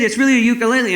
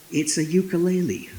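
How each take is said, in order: First: Higher, louder retold insistence; acted-out earnest protest; insistent protest. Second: Said in the usual way. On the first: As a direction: plead your case, stressing it's true. Insisting to a doubting officer.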